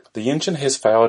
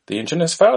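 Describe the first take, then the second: First: Said in the usual way. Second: Put-on high, questioning Indian accent; Indian-accented disbelieving help desk agent. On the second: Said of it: "An Indian voice is heard".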